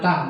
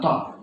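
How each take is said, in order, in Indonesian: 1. Bunyi t tipis, dengan vokal yang ringan. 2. Bunyi t tebal, dengan vokal yang gelap. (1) "harus tipis" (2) "bukan tok"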